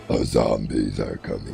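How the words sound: It is said in a gravelly villain voice. The speaker calls it wrong. "No, that's that's more Doctor Claw"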